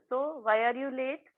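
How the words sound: It is asked in a calm, simple tone. The listener feels safe to explain the reason. "हा tone इतका simple आणि सरळ होता"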